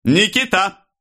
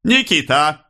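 First: Very high, falling summons; loud call. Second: Raised pitch, rising at the end; unhurried summons. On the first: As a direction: call «Никита» out high, as across a crowd. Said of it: "громко позвал Становой". (громкий высокий зов) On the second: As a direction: summon «Никита» deliberately, lifting the ending. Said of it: "не торопясь, сказал Становой". (неторопливый оклик с подъёмом в конце) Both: A narrator's reading.

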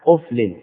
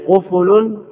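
First: قفل as quf-lin; two-syllable قفل: QUF-lin; lightened, silent fa. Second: قفل as qu-fu-lun, drawn out slowly; three-syllable قفل: qu-FU-lun; full double damma. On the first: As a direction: say قفل with no vowel on the fa. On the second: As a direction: say قفل slowly with u on both qaf and fa. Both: Shown as a demonstration. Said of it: "يخفف على".

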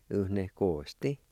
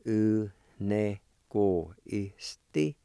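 First: U ne ko isti run together at speaking speed; U ne ko isti, natural flow with a rise at the end; Cherokee word at normal pace. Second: U ne ko isti drawn out slowly; U ne ko isti, slow and deliberate; slow Cherokee word. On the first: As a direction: say U ne ko isti smoothly as one word. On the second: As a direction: say U ne ko isti at half speed, every sound stretched. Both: Shown as a demonstration. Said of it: "it's pronounced like this".

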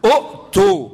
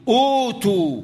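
First: أؤتوا broken by a glottal stop after short u; original still hamza. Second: أوتوا with a long opening oo, no inner stop; substituted long vowel. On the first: Teacher shows the origin, أؤتوا with a loud caught hamza. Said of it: "معايا همزة مضمومة بعدها همزة ساكنة". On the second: Teacher gives the word as read, أوتوا with long oo. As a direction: glide through a long oo in أوتوا. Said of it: "أصلها". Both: Shown as a demonstration.

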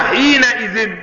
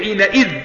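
First: "حينئذ" said as "حينئذٍ", ending "-izin"; with kasra nunation. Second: "حينئذ" said as "حينئذْ", ending on a still dhal with no -in; without nunation. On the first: Teacher explains to students why "حينئذ" ends in -izin. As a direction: give "حينئذ" a kasra on the dhal plus a clear -in. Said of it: "حركت الزال وأصبحت إيه؟ مكسورة،". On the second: Teacher shows students "حينئذ" without tanween, ending on still dhal. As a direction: drop the nunation, close "حينئذ" on a bare dh. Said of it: "لو أنا حذفت التنوين، فكيت التنوين، هقول إيه؟". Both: Shown as a demonstration.

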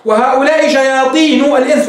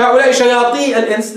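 First: "شياطين" ending in a sounded -nu; nun kept. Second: "شياطين" cut to shayaatii; "شياطين" as shayaatii, the n left off; nun dropped. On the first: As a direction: say "شياطين" as shayaatiinu before "الإنس". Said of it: "لا تحذف نون حين". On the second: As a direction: say "شياطين" without its final nun before "الإنس". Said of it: "ولا يجوز تقول". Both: Shown as a demonstration.

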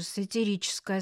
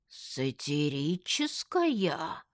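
First: Said in the usual way. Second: Slow, stretched «Сатирическая» in doubt; incredulous drawl on «Сатирическая»; drawn-out query. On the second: A narrator's reading. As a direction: draw out «Сатирическая» syllable by syllable, questioning. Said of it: "протянул Семён Иванович".

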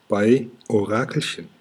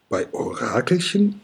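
First: Said in the usual way. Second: High, astonished question rising sharply at the end; surprised call. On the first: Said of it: "sagt Kokosnuss". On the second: A narrator's reading. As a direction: call it out in disbelief. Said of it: "rufen die Drachen".

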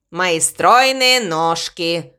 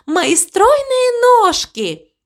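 First: Low, slow, drawn-out echo; crow echoing the cow. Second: High, drawn-out proud exclamation; cow delighted with herself. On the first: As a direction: repeat it slowly in a deep voice. Crow echoes the cow's words. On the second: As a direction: stretch the words out high, self-admiring. Cow sings her own praise. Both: A narrator's reading.

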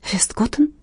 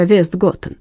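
First: A soft gasped question; surprised gasp. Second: Said in the usual way. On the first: Acted. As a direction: gasp the name in quiet surprise. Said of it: "ахнула Инга".

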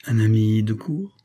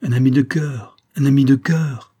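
First: Slow, mocking question; drawn-out sarcastic jab. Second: Louder, higher, eager repetition; eager insistence. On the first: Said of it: "d'un ton sarcastique". (le capitaine raille Chavigny, ton moqueur et lent) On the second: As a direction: insist warmly, pressing the point. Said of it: "répéta vivement Chavigny". (Chavigny répond au capitaine, insistance vive et plus forte) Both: A narrator's reading.

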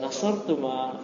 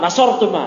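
First: NASORTU MA very soft, trailing gently; hushed, tender "Nasortu ma"; address to the other pair. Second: NASORTU MA raised and firm, falling at the end; high, full-voiced "Nasortu ma"; address to men. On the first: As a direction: say "Nasortu ma" softly, as if sweet-talking two women. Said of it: "mereka berdua". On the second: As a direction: call "Nasortu ma" out to two male friends. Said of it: "Kalau ke Bang Afif sama Iqbal mah". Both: Shown as a demonstration.

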